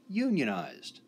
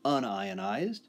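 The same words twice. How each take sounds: First: It starts with 'yoon', like the word union. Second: It starts with 'un-eye', like un-plus-ionized. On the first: Workers belong to a trade union. "focus on union, as in unionized" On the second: A particle carries no electric charge. "We would focus on the word ionized"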